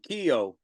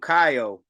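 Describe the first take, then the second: First: The name is said the French way. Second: The name is said the American way. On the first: This is how people in France say it. The speaker calls it right. "in France they call him Kyo" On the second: This is how people in the U.S. say it. The speaker calls it wrong. "we call him Kaio"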